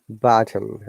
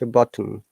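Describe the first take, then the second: First: The first vowel is long, American style. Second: The first vowel is short, British style. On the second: "but in British English"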